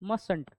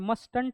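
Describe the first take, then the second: First: The first t is left silent. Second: The first t is clearly pronounced. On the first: The speaker calls it right. "First टी is silent" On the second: The speaker calls it wrong. "यहाँ पे मस्टंट है क्या, ये नहीं"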